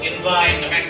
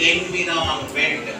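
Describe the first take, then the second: First: It is said with three compressed syllables. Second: It is said with four full syllables. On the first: This is the newer, advanced form. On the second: This is the form heard for generations. "మనం తరతరాలుగా విన్నదేంది?"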